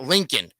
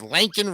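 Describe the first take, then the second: First: The name sounds like the word Lincoln. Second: The name sounds like the name Laken. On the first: The speaker calls it wrong. "it's not Lincoln" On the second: The speaker calls it right. "it's Lankin Riley"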